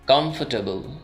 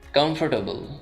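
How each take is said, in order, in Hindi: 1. r की आवाज़ silent छोड़ दी जाती है। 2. r की आवाज़ बोली जाती है।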